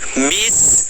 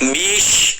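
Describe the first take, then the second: First: The s is light and thin. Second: The s is heavy, like sh. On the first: The speaker calls it right. "Bis itu tipis" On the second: The speaker calls it wrong. "jangan sampai bish. Jangan, tapi itu salah"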